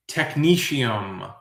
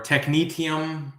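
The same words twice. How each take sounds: First: Technetium said slowly as tek-NEE-shee-um. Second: Technetium said slowly as tek-NEE-tee-um. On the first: Quiz host gives one pronunciation, technetium ending in shee-um. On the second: Quiz host offers other pronunciation, technetium ending in tee-um. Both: Shown as a demonstration. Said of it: "depending on the pronunciation".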